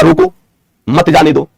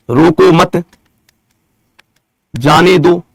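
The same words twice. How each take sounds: First: रोको alone, pause, then मत जाने दो together; मत joined onto जाने दो; pause after रोको. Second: रोको मत together, long pause, then जाने दो; measured reading, मत closing the first phrase; pause after मत. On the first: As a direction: break the line after रोको, before मत. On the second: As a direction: break the line after मत, before जाने दो. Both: Shown as a demonstration. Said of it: "यति में ही तो परिवर्तन करा".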